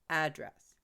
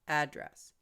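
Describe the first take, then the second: First: The stress is on the first syllable. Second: The stress is on the first syllable.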